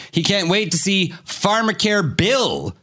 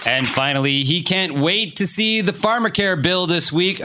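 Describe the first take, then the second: First: Bill said as a name, stressed. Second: Said in the usual way. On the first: Shown as a demonstration. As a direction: hit Bill like a person's name. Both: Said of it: "Oh, sorry".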